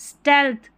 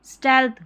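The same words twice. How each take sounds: No difference in how they are said.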